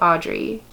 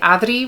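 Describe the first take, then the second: First: The R in the name is not rolled. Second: The R in the name is rolled. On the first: "I will happily just take Audrey" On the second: "that little Spanish flip and say Adri with that beautiful rolled R"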